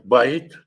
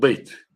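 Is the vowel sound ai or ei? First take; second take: ai; ei. First: The vowel is the diphthong ai. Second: The vowel is the diphthong ei. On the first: This is the southern pronunciation. "на южном языке говорят" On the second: This is the northern pronunciation. "на северном"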